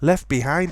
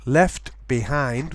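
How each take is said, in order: First: The t at the end of left is dropped. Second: The t at the end of left is pronounced. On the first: It sounds normal. "is the norm" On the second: It sounds very careful. "would be very careful"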